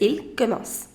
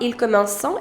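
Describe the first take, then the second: First: The final verb ending is left silent. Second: The final verb ending is sounded out. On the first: The speaker calls it right. "if you have ent at the end, you don't pronounce that" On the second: The speaker calls it wrong. "It is not"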